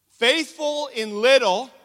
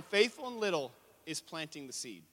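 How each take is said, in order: First: Slow, high, very loud declaration; loud proclamation. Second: Said in the usual way. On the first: Real, not acted. Preacher proclaiming the key point to write down, loud and slow. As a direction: belt out each word slowly.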